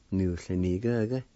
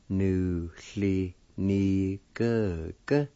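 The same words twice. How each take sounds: First: Said in the usual way. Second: Measured, separated syllables. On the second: Shown as a demonstration. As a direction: say each syllable on its own. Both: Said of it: "needs to pronounce like this".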